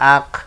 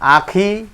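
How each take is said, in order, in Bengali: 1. শব্দটি স্বরহীন ব্যঞ্জনে শেষ হয়। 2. শব্দটি তার শেষ স্বরধ্বনি উচ্চারিত হয়ে শেষ হয়। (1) "এটাই আরজি সাকিন, জেরে থামিলে সাকিন ধরে পড়তে হয়" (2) "জেরে না থামিলে যেমন আছে তেমন করে পড়তে হয়"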